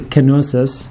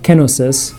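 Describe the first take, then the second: First: The stress is on the second syllable. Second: The stress is on the first syllable. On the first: This is how many people commonly say it. "a lot of times people say kenosis, like theosis" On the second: This is how it is said in Greek. "in Greek, you emphasize the first syllable"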